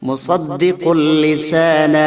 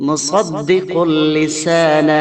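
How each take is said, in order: No difference in how they are said.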